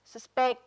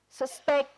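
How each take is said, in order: First: SusPECT, second syllable stressed; "suspect" stressed on its final syllable. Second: SUSpect, first syllable stressed; "suspect" stressed on its opening syllable. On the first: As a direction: hit PECT in "suspect", as the verb. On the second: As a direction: hit SUS in "suspect", as the noun. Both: Shown as a demonstration. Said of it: "asap so ke prek do".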